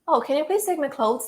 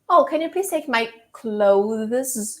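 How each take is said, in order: First: Clothes is said simply and reduced within the sentence. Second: The TH and Z in clothes are carefully articulated. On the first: The speaker calls it right. "in a simple way" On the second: The speaker calls it wrong. "It doesn't sound natural at all"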